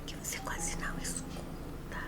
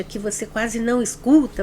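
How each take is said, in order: First: Barely audible whisper, almost no voice. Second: Said in the usual way. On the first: Shown as a demonstration. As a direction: whisper so softly it can hardly be heard. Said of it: "Você escutou o que eu falei?". (sussurro quase inaudível) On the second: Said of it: "é uma voz muito baixa".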